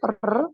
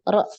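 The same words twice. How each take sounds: First: The r is trilled several times. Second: The r is tapped exactly once. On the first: The speaker calls it wrong. "ini kebanyakan, ya masih lebih dari sekali" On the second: The speaker calls it right. "getarannya sekali"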